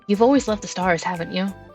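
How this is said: It is said in a deep voice.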